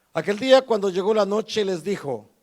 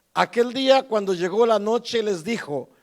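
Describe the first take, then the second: The two takes are said the same way.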